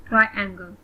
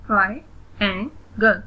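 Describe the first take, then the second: First: Said in the usual way. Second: "Triangle" broken into three separate beats; split into syllables. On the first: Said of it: "read the word". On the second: Shown as a demonstration. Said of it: "split in the syllables". ("Triangle" को तीन syllables में तोड़कर)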